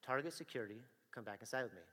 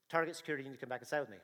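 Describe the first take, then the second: First: Officer repeating his order, lower and sterner; lower, firmer repeat. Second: Steady, firm announcement to a suspect; a plain first warning at the door; firm security officer. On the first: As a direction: press it home, no longer asking. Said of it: "And I go". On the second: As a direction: state it like an officer stopping someone. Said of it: "and I say". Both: Retold or imitated.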